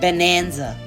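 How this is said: It is said in an American accent.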